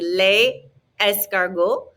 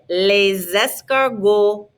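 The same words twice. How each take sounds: First: No z sound links the two words. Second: A z sound links the two words. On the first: The speaker calls it wrong. "Otherwise, it would be" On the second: The speaker calls it right. "we put a little Z sound in there to make it flow"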